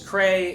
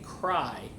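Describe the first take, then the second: First: The vowel sounds like 'ay' in 'day'. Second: The vowel sounds like 'eye' in 'cry'. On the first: The speaker calls it wrong. "I thought their name was Cray" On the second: The speaker calls it right. "It's actually Cry"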